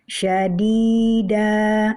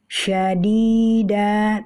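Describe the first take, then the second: The two takes are said the same way.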